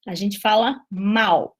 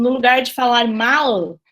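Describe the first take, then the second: First: "mal" ending in a U sound, like "mau"; vocalised L. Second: "mal" with a clear final L; "mal" with the L fully pronounced; full final L. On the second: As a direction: say "mal" ending on a crisp L. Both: Shown as a demonstration.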